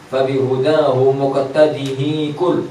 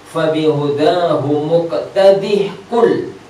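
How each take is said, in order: First: The h carries an i vowel before qul. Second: A bare h sound comes before qul. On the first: The speaker calls it wrong. "jangan di kasroh ya" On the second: The speaker calls it right. "Dibaca wasal pun ha tetap ada"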